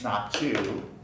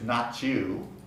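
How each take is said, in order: First: The T blends with the following Y sound. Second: The same.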